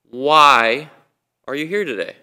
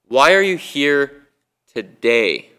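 First: The stress falls on the word why. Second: The stress falls on the word today.

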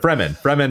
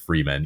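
First: It does not sound like 'free man'. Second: It sounds just like the words 'free man'. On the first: The speaker calls it right. "But Fremen it is" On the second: The speaker calls it wrong. "I always pronounced it Freeman"

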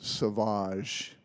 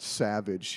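First: It is said with a French pronunciation. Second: It is said like the English word savage. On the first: The speaker calls it right. "I didn't know I was supposed to pronounce it Sauvage" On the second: The speaker calls it wrong. "I called it Savage"

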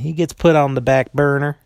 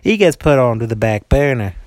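First: It is said in the speaker's normal accent. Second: It is said in a put-on Southern accent.

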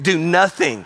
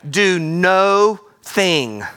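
First: It is said at normal speed. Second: It is said slowly, word by word.

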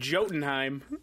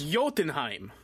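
First: The J is pronounced like an English J. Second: The J is pronounced like an English Y. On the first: The speaker calls it wrong. "egregiously bad pronunciation" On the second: The speaker calls it right. "J is a Y sound"

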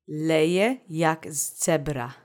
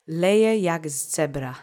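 First: It is said at a normal pace. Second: It is said a little faster.

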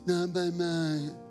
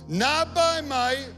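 First: It is said weakly, without conviction. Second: It is said strongly, with conviction.

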